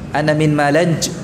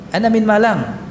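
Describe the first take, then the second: First: The city name ends with an 'nj' sound. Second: The city name ends with an 'ng' sound. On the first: The speaker calls it wrong. "tidak disebut Malanj" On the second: The speaker calls it right.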